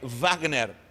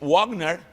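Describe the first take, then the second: First: The first sound is like English v. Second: The first sound is like English w. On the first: This is the German way of saying it. "em alemão é Wagner" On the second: This is the English way of saying it. "em inglês é U"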